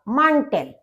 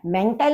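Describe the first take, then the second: First: The first vowel sounds like 'ah'. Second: The first vowel sounds like 'eh'. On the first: The speaker calls it right. "क्योंकि ए को आ बोला जाता है" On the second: The speaker calls it wrong. "मेंटल नहीं होगा"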